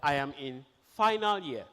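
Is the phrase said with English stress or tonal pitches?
English stress. Syllables follow English stress patterns. The speaker calls it right. "instead of"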